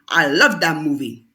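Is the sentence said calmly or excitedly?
calmly. It is said calmly, like a statement.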